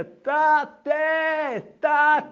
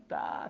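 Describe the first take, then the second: First: High, loud, long-drawn wail of "תתה"; child crying out. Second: Small, soft, pleading Tata; a little boy calling "תתה" softly and humbly through his tears; heartbroken child's call. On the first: Locked-in boy calls out for his father, high loud and drawn-out. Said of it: "שומע קול מתוק מעבר למחיצה". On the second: Small boy locked in the toilet calls his father, softly pleading. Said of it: "בשברון לב, בהכנעה". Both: Retold or imitated.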